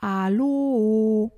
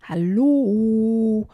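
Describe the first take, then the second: First: Loud, drawn-out echo; long held call, slightly less forceful. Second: Long, loud call across water. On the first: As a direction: mimic an echo bouncing back. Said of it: "schallt das Echo zurück". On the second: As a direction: stretch it out, raised and ringing. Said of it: "ruft Emily über das Wasser". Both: Acted.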